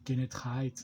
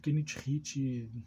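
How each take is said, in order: First: The name gets an English pronunciation with an 'eye' vowel. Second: The name is read Portuguese-style, as it is spelled. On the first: The person is showing off having taken an English course. "só para mostrar que tu fez um cursinho no C C A A" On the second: The person learned the word by reading it. "ele leu Kenneth Hit, aportuguesou a palavra"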